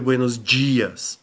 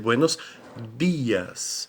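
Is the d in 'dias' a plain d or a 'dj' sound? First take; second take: dj sound; plain d. First: The d in dias sounds like 'dj'. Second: The d in dias is a plain d. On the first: The speaker calls it wrong. "a gente não vai dizer" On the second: The speaker calls it right. "a gente vai dizer"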